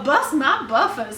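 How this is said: It is said in a Southern US accent. "the Southern well"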